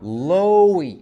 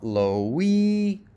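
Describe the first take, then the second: First: The first syllable is higher, longer and louder. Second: The first syllable is not higher, longer or louder. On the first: The speaker calls it right. "Stress syllables are higher, longer, and louder" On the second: The speaker calls it wrong.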